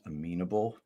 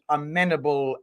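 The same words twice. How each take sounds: First: The word is pronounced in the British way. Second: The word is pronounced in a non-British way. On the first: The speaker calls it right. "I think the British pronunciation is amenable" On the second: The speaker calls it wrong. "I just want to apologize for not getting that"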